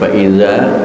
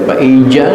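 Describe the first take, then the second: First: The consonant is a z sound. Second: The consonant is a j sound. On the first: The speaker calls it right. "tetapi faiza za" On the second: The speaker calls it wrong. "jangan dibaca faija"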